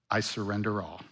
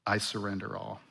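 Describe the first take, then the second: No difference in how they are said.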